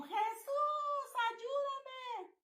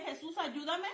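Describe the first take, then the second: First: High, drawn-out wail to Jesus, without full volume; retold full-lung cry. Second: Said in the usual way. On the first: Woman retells calling on Jesus against a demon, retold high cry. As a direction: reenact a long, high-pitched cry for help. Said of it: "grité a todo pulmón". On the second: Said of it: "grité".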